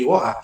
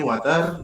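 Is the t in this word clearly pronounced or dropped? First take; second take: dropped; pronounced. First: It is said in a British accent, t dropped. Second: It is said in an American accent. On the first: "dari masuk British jadi" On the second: "dari Amerikanya water"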